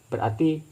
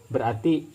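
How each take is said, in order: The two takes are said the same way.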